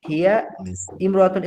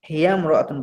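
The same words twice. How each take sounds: First: The alif is pronounced, keeping the words separate. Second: The alif is dropped, running the words together. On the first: The speaker calls it wrong. "এভাবে না বলে" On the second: The speaker calls it right. "মিলিয়ে বলতে হলে বলতে হবে"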